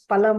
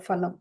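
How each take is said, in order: First: The first p is said without aspiration. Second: The first p is said with aspiration. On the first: The speaker calls it right. "Utpalam is palam only" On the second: The speaker calls it wrong. "no phalam"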